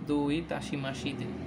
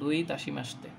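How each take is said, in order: First: Every syllable is said fully, including the 'shi'. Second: The vowel in 'shi' is dropped, giving 'shte'. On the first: This is how it would sound if read as written. "মানে যদি ইয়া দিয়ে লেখা হইতো তাহলে এভাবে উচ্চারণ হতো" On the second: This is how it is actually pronounced. "কিন্তু ফ্রেজ তো একটু চেঞ্জ হয়ে যায় উচ্চারণটা"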